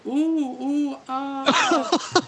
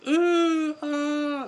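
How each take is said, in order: First: High, loud mock moaning; imitated porno moans. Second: Very high, loud porno-style moaning; hammed-up shrieky moans of horror-film passion; high-pitched mock moans. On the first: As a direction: moan in hammed-up movie passion. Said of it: "she's going". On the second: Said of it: "just slightly more high-pitched".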